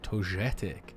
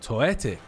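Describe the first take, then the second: First: The middle g is a soft g. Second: The middle g is not pronounced. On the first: "it's a soft G in that kind of way" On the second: "The G is silent"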